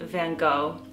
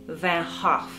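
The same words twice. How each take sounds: First: The name is said in an American pronunciation. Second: The name is said in a Dutch pronunciation. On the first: "Americans, we pronounce it" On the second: "the Dutch pronounce it"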